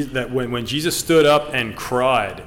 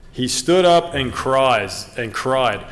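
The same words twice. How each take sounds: First: Said in the usual way. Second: Slow, with weight on "stood up" and "cried"; emphatic, slow. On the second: Shown as a demonstration. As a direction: lean into each word to stress it. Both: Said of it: "I think that was emphatic".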